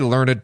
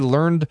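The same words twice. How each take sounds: First: The -ed ending is a separate syllable. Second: The -ed ending is not a separate syllable. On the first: "I'll read all my EDs there" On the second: "I'm against pronouncing the EDs"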